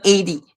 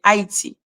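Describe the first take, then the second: First: Eighty for Haiti, AY-dee; English pronunciation. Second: Haiti as ah-ee-tee, silent H; local pronunciation. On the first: Showing how they don't say it, English pronunciation. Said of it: "not eighty". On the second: Correcting how they say it in Haiti, local pronunciation. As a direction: say Haiti the French way, three syllables. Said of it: "that's not how they say it". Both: Shown as a demonstration.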